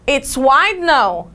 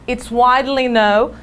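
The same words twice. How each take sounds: First: "it's wide known" said slowly, stressing "wide" without -ly; wrong form, slow. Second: "It's widely known" said smoothly, with the "-ly" of "widely" clear; correct form. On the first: Teacher contrasting the wrong form for students, slow. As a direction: lay out the wrong version slowly. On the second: Teacher giving students the correct form, clear. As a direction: give the right version cleanly. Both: Shown as a demonstration. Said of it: "Olha a diferença".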